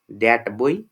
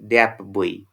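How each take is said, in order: First: The word 'that' ends in a t sound. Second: The word 'that' ends in a p sound. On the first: "actual pronunciation is" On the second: "assimilated pronunciation is"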